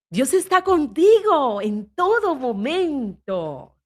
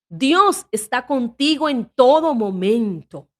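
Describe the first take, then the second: First: It is said in a cheerful tone. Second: It is said in a firm tone.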